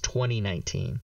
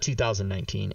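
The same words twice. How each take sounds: First: The year is read as twenty nineteen. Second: The year is read as two thousand nineteen. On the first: The speaker calls it right. "It's 2019. Two numbers" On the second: The speaker calls it wrong. "It's not 2019. You don't say 2000"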